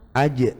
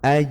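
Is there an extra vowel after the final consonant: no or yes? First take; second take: yes; no. First: An extra vowel sound follows the final consonant. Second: It ends on a bouncing consonant without a vowel. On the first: The speaker calls it wrong. "Biasanya kan dulu kan bacanya" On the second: The speaker calls it right. "Bukan dikasih harokat e nggih"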